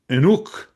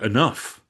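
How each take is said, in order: First: It is said with an older, historical pronunciation. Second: It is said with modern English pronunciation. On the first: "Enuk would have been the pronunciation for enough" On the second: "we no longer pronounce it in that way"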